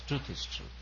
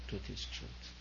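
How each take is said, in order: First: Truth is truth, the first truth pitched higher and falling; firm statement. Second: Truth is truth whispered, much softer. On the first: Guru to retreat audience, firm emphatic statement. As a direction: state truth is truth flatly and firmly. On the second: Guru to retreat audience, hushed whisper. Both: Shown as a demonstration. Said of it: "Whether said sweetly or whether said harshly".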